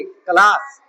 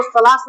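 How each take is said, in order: First: क्लास said with a hard k, as klaas; hard k sound. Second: सलास said with an s, as salaas; wrong s sound. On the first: Teacher gives a child the right reading, क्लास with k. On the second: Teacher shows a child the wrong reading, सलास with s. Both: Shown as a demonstration. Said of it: "इसको सलास नहीं पढ़ेंगे".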